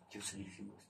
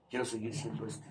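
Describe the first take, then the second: First: Quiet repeat. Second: Said in the usual way. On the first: Real, not acted. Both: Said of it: "repeats his own phrase".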